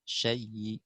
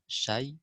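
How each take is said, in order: First: The final sound carries a faint, weakened vowel. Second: The final sound stops with no vowel. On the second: "pertama baca uh, sukun"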